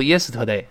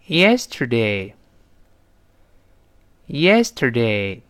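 First: "yesterday" mispronounced "ye-si-te-day", no r; wrong yesterday. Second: "yesterday" very slow, tongue curled on the er; r-coloured yesterday. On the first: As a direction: drop the r colour and add a syllable in "yesterday". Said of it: "不要读". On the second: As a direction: draw out "yesterday" with an American r. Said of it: "也要勾手". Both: Shown as a demonstration.

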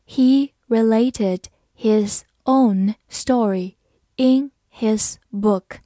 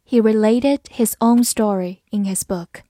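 First: Slow, deliberate read for learners. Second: Said in the usual way. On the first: Shown as a demonstration. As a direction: stretch every word out slowly. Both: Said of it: "好，慢读一遍。".

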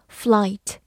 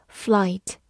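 The two takes are said the same way.

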